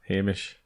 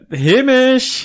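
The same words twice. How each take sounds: First: The name is said flatly, without enthusiasm. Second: The name is said with much enthusiasm.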